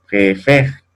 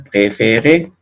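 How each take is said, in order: First: "préfère" ending in open eh plus R. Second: "préféré" in three syllables, ending on closed ay; closed final É. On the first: Teacher contrasting two French words, open È. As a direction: drop the final E of "préfère", open the middle one. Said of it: "en cambio acá dice préfère". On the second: Teacher contrasting two French words, closed É. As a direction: sound the last E of "préféré", closed. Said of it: "que ya cambió". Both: Shown as a demonstration.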